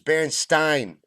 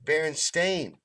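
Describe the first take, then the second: First: The last syllable sounds like 'stine'. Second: The last syllable sounds like 'stain'. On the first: This is the name as the speaker remembers it. The speaker calls it right. "it was Berenstein" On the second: This is the name as it is now said to be. The speaker calls it wrong. "It was not Berenstain. I know how to say stain"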